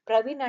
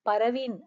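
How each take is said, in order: First: The p and r are joined together. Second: A vowel separates the p and r. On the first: The speaker calls it right. "ప్రవీణ్ అంటాం" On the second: The speaker calls it wrong. "పరవీన్ అనం కదా! అలా విడదీయం"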